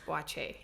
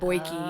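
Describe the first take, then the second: First: The last syllable ends with a 'chay' sound. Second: The last syllable ends with a 'kee' sound. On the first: The speaker calls it right. "It's Boache" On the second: The speaker calls it wrong. "lots of people would be like Boyki, but it's not"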